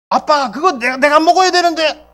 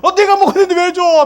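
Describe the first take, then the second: First: Put-on higher, complaining child to dad; a kid protesting his food is taken; child whining to father about his bread; whiny child. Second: Higher, louder, fast near-crying protest; a kid on the verge of tears; child about to cry as bread goes to another; upset child. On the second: Acted. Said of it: "막 울 거야".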